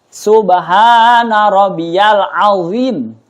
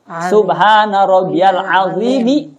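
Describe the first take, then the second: First: The final m is not followed by a vowel. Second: The final m is followed by an i vowel. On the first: "boleh dimatiin juga ujungnya mimnya" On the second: "kalau mau dibarisi ya azimi"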